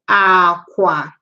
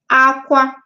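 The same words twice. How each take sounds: First: It has the tone pattern meaning bed. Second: It has the tone pattern meaning cry. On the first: It means bed. "aqua, bed" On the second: It means to cry. "aqua, aqua, cry"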